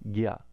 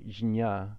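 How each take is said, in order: First: It starts with a g sound, then y. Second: It starts with a j sound, then n. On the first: The speaker calls it right. "how we pronounce it instead is gya, like a G and a Y sound" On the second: The speaker calls it wrong. "we would try to say jnya, but uh, it ends up wasting a lot of prana"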